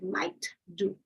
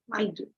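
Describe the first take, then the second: First: The T of might is clearly released. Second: The T of might is held, not released. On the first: The speaker calls it wrong. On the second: The speaker calls it right.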